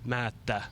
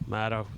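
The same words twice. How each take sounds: First: The vowel and the T are long. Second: The vowel and the T are short. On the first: It is the original version of the name. "The original one would be Oli Mata. long A and long, long T" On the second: It is the English-style version of the name. "the English way"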